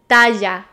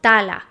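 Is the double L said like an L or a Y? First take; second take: Y; L. First: The double L sounds like a Y. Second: The double L sounds like an L. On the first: The speaker calls it right. "when you have two L's together, it's pronounced J" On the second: The speaker calls it wrong. "not tala"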